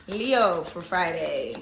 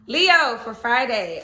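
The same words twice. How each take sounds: First: Slow and low Leo for Friday; low drawn-out announcement. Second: Stretched, sing-song Leo for Friday; slow drawn-out announcement. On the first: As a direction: drop low and stretch each word. Announcing the sign again. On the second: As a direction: draw out every word slowly. Announcing the next sign. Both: Acted.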